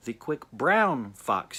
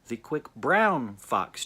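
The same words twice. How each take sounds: First: The word 'brown' is stressed. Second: The same.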